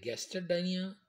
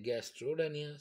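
First: Gastrodynia as "gaster-dynia", linking o left out; not smooth. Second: Gastrodynia with a clear linking o, "gastro-dynia"; smooth pronunciation. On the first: Teacher demonstrating the unsmooth word, gastrodynia without the o. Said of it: "it is not smooth". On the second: Teacher demonstrating the smooth word, gastrodynia with its o sounded. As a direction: glide through the o in gastrodynia. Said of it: "it is a smooth pronunciation". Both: Shown as a demonstration.

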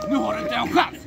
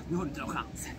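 First: Playful shouted boast at Einar; shouted taunt. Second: Muttered taunt. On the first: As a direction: crow it at your rival. Loud teasing taunt. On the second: Taunt under the breath. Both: Pretend.

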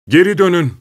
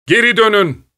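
First: Hands cupped, yelling to them; shouting. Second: Higher, more desperate yell; louder shout. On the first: (korkuyla bağırış) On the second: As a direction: scream it even harder. (daha yüksek, çaresiz haykırış) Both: A narrator's reading. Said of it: "diye bağırdım".

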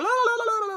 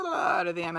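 First: Much higher, louder mock blah-blah rant; mock babble. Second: Said in the usual way. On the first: Teller mocks her own rambling on the call, blah-blah-blah high and loud. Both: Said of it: "I just went blah".

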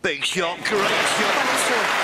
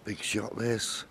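First: High, rising excited call. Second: Hushed tense commentary; quiet. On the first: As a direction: burst out as the shot lands. Shot made, commentator erupts. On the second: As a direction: hold the breath before the shot. Quiet tension before key shot. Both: Real, not acted.

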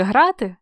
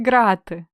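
First: Said in the usual way. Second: "грати" opening with a hard g stop. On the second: Shown as a demonstration. Teacher asking which letter fits, "грати" with hard g. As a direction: say "грати" as ґрати, with plosive g. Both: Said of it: "Літера «Г»".

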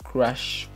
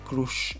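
First: "crush" with an open A vowel; crush pronounced "crash". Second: "crush" with a Spanish U; crush pronounced "croosh". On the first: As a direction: make crush sound like "crash". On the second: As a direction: make crush sound like "croosh". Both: Shown as a demonstration. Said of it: "o como le digan ustedes".

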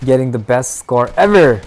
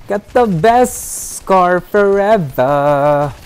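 First: Said in the usual way. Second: Higher, slow, drawn-out sing-song; stretched sing-song. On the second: Real, not acted. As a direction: savour each word, stretched and lilting. Playful stretched repeat of line.

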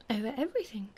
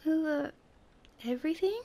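First: King's simple, settled answer; plain, matter-of-fact. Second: High, halting, rising echo; incredulous question. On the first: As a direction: state it plainly, falling at the end. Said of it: "replied the king plainly". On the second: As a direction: question it in amazement, pausing midway. Prince echoes king in disbelief. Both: A narrator's reading.

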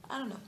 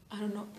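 The two takes are said the same way.

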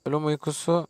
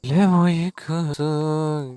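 First: Said in the usual way. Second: Slow, stretched "Ölüm uykusu"; slow mock-ominous "Ölüm uykusu"; drawn-out. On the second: Shown as a demonstration. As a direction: drag out "Ölüm uykusu" like a spooky title.

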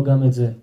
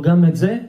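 First: Said in the usual way. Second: "זה" rising high as a question; asking. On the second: Acted. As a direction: ask "גם את זה" with a raised, questioning ending. Old man asks the seller.

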